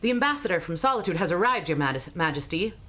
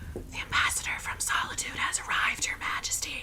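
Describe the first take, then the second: First: The line is spoken in a normal voice. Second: The line is spoken in a whisper. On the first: The speaker calls it wrong. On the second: The speaker calls it right.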